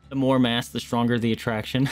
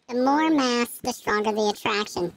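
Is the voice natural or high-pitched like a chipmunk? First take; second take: natural; chipmunk. First: It is said in a natural voice. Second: It is said in a high chipmunk voice.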